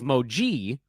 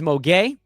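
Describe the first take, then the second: First: The name ends with a soft 'jee' sound. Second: The name ends with a hard 'gay' sound. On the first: The speaker calls it wrong. "the pronunciation that I had of Moge of Moji was incorrect" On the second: The speaker calls it right.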